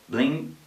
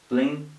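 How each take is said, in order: No difference in how they are said.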